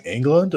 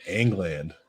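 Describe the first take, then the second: First: England said as ENG-lund; reduced last syllable. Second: England said as ENG-land; full last syllable. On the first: Host asks about the actor's surname, England as ENG-lund. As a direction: say England with a weak "lund" ending. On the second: Host asks about the actor's surname, England as ENG-land. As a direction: say England with a clear "land" ending. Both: Shown as a demonstration. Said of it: "Is it spelled England or England".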